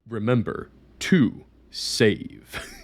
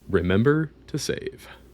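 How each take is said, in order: First: It is said imitating Roxel's voice. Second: It is said in his normal voice.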